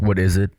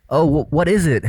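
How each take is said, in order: First: "What is it?" said low, the voice dropping at the end; firm falling tune on "What is it?"; falling question. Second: "Oh, wh-, what is it?" said higher, the voice going up at the end; hesitant higher tune on "Oh, wh-, what is it?"; rising question. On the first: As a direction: ask "What is it?" like a statement, pitch going down on "it". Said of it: "he's going down with his voice at the end of the question". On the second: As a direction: ask "what is it?" with an unsure lift on "it". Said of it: "Normal people would always go like". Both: Shown as a demonstration.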